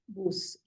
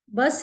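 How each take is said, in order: First: The word is said with German pronunciation. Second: The word is said with English pronunciation. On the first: "Bus in German" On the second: "Bus is"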